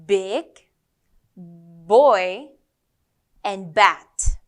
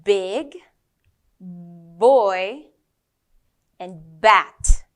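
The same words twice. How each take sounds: First: Put-on "Big", "boy", "bat" again spoken alone with a strong popped B; clear B words. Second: Put-on "Big", "boy", "bat" each spoken alone with a strong popped B; clear B words. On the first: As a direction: pop each B firmly and loudly. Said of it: "Let's try it again". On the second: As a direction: punch the B in every word. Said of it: "let's go with the B sound". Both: Shown as a demonstration.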